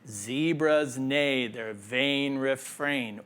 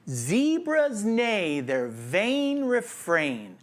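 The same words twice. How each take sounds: First: The pitch stays level on one note. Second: The pitch moves up and down throughout. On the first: The speaker calls it wrong. "What we're trying to avoid" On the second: The speaker calls it right. "vary the pitch and the intensity of your voice like a roller coaster"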